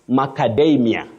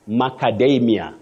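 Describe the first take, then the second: Both takes have the same delivery.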